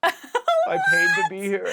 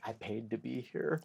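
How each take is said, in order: First: Very high, loud, drawn-out wail; repeated tripping mantra. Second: Said in the usual way. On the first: Retold or imitated. Retelling own mid-trip self-reminder, high hammed-up wail. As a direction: wail it slowly at the top of your pitch, hammed up. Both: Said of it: "apparently I kept saying".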